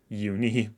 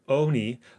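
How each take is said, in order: First: The word begins with a 'you' sound. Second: The word begins with an 'oo' sound. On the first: The speaker calls it right. "uni is the canonical pronunciation of uni. Unicorn" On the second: The speaker calls it wrong. "I've heard many people call it oni, like the Japanese uni"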